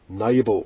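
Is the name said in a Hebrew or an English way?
English. The name is said with an English pronunciation. "as Anglo-Saxons would like to pronounce it"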